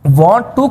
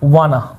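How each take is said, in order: First: Both words are said separately and fully. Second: The words are blended into one reduced word. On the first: "लिखने में वांट टू ही होता है" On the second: "पढ़ने में वाना होता है"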